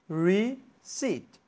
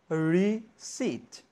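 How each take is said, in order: Both takes have the same delivery.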